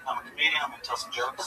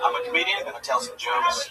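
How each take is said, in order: First: It is said quietly. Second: It is said loudly.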